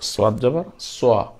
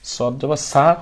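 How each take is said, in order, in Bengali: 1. এই বর্ণটি গোলাকার ঠোঁটে উচ্চারিত হয়। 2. এই বর্ণটি সমতল, অগোলাকার ঠোঁটে উচ্চারিত হয়। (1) "আমরা বলবো সদ জবর সোয়া" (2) "সদ জবর সা আমি বলবো না"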